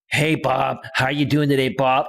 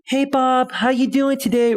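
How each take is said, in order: First: It is said in a masculine-sounding voice. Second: It is said in a feminine-sounding voice.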